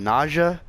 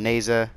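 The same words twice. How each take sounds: First: Naja as "NAH-zhuh"; other people's pronunciation. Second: Neza as "NAY-zuh"; own pronunciation. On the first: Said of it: "A lot of people call him". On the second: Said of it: "I call him". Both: Shown as a demonstration.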